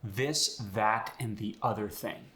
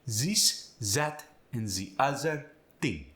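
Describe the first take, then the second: First: The voiced th sounds are normal th sounds. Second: The voiced th sounds are replaced by z.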